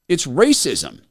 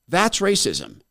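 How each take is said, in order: First: "racism" carries the weight, falling; stress on racism. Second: "That's" hit hard, falling tune; stress on That's. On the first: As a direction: land the word "racism". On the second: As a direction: point at it with "That's". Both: Shown as a demonstration.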